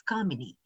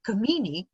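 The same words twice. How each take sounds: First: Kamini said as KAA-mi-nee; long first vowel, short middle in Kamini; Hindi name pronunciation. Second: Kamini said as kuh-MEE-nee; short first vowel, long stressed middle in Kamini; different-meaning pronunciation. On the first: Explaining a wordplay, Kamini said as KAA-mi-nee. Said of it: "if you write it in Hindi". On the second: Explaining the other meaning, Kamini said as kuh-MEE-nee. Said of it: "which is a different meaning altogether". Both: Shown as a demonstration.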